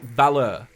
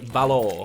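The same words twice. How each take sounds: First: It ends with a strong r-coloured er sound. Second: It ends with an or-like vowel, no strong r. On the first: "like valor in America. It's like e, a really strong er on it" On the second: "in England it's a it's like an or sound"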